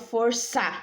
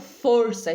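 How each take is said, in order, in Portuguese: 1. A tônica está na segunda sílaba. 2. A tônica está na primeira sílaba. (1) "Eu falo força ou eu falo força?" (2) "o for é a sílaba tônica"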